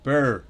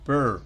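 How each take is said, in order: Both takes have the same delivery.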